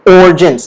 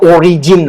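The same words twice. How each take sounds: First: "origins" in two syllables, "OR-jins"; silent I. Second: "origin" as "o-ree-jeen"; I wrongly pronounced. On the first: Teacher explains the spelling, "origins" with silent i. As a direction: drop the first i of "origins". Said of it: "The I here is silent I". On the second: Teacher shows the mistake, "origin" as "o-ree-jeen". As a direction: sound out every i in "origin". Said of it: "It's not origin". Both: Shown as a demonstration.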